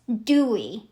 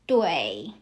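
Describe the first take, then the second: First: The vowel glides straight from oo to ee. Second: The vowel has an ay sound, like 'way'. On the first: The speaker calls it wrong. "So normally, I pronounce it as dewy" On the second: The speaker calls it right. "because I look at U I as U E I"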